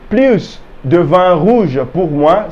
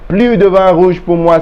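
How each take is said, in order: First: The S at the end of plus is pronounced. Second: The S at the end of plus is silent. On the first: The speaker wants more red wine. "Because we say plus" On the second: The speaker wants no more red wine. "we did not pronounce the S"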